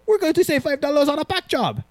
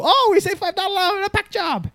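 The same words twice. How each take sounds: First: Mock Asian accent, much higher; funny foreign accent. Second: Much higher mock Asian accent. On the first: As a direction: imitate the jumpers with a put-on Asian accent. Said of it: "they had a funny accent". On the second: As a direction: retell the jumpers' line in a put-on Asian accent. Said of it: "I sound Asian".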